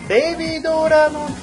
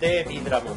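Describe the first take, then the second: First: The name is said energetically with a Japanese-style vowel. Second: The name is said plainly, without extra vowels.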